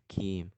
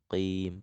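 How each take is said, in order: First: The first consonant is an ordinary forward k sound. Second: The first consonant is made deep in the throat. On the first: The speaker calls it wrong. "bukan kim" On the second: The speaker calls it right. "qafnya ... mundur di pangkal lidah yang paling belakang"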